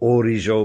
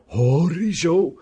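First: The word begins directly with a vowel. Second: The word begins with an h sound.

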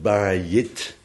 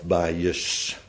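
First: The word ends with a t sound. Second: The word ends with an s sound. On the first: "die t aan het eind wordt ook uitgesproken als th" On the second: "En daarom ook wel als s"

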